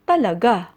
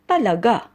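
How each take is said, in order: First: It sounds like a firm, definite statement. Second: The same.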